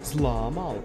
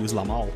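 First: The name is drawn out slowly. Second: The name is said quickly and clipped. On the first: This is how people from a slow-speaking region say it. "this area in the country where they speak slow" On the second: This is how people from a fast-speaking region say it. "another part where we speak very quickly"

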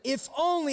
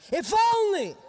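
First: It is said plainly, without drama. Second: It is said dramatically, with exaggerated feeling.

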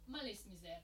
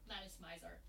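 First: The name is pronounced in a Japanese style. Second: The name is pronounced in an American style.

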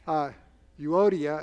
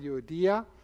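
First: The stress is not on the 'i' syllable. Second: The stress is on the 'i' syllable. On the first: The speaker calls it wrong. "is how a lot of people might pronounce it" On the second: The speaker calls it right. "The accent is on the I"

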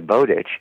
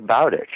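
First: The first syllable rhymes with 'go'. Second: The first syllable rhymes with 'cow'. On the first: This is the common popular pronunciation. The speaker calls it wrong. "most people say Bowditch" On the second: This is how the historical person's name was said. The speaker calls it right. "it was Bowditch. ... It's the bow"

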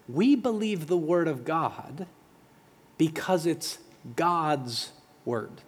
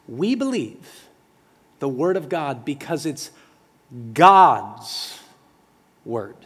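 First: It is said plainly, with little force. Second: It is said with strong, forceful emphasis. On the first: "that sounded really simple" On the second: "I want to say it with a little more emphasis"

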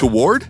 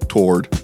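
First: The word is stretched to nearly three syllables. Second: The word is said as one syllable, rhyming with 'sword'. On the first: "who can somehow almost turn the word toward into almost three syllables" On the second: "like it's T-W-A-R-D, like sword"

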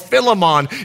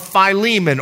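First: The name is pronounced the French way. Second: The name is pronounced the usual English way.

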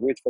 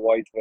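First: The first syllable sounds like 'with'. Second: The first syllable sounds like 'wythe'. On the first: The speaker calls it right. "is it Withville or Wytheville? / Yes, Withville" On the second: The speaker calls it wrong. "not Wytheville"

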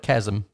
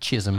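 First: The first vowel sounds like the one in 'cat'. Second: The first vowel sounds like the one in 'sit'. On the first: The speaker calls it right. "not a chasm" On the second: The speaker calls it wrong. "She also thinks a large gap is a chism"

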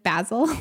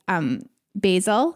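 First: It is said a non-American way. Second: It is said the American way. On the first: "instead of basil" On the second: "in the US, we say basil"

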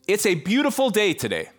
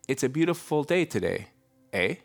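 First: It sounds like a confident exclamation. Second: It sounds like a tentative question.

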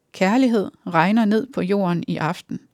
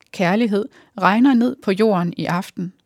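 Both takes have the same delivery.

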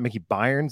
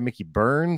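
First: The surname is said like 'Byrnes'. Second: The surname is said like 'Burns'. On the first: The speaker calls it wrong. "It's not Mickey Byrnes. Like I've been saying over and over" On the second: The speaker calls it right. "I've been saying it wrong. So sorry, Mickey Burns"

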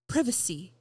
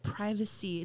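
First: Privacy is said with an English accent. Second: Privacy is said with a Californian accent.

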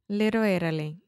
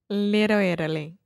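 Both takes have the same delivery.

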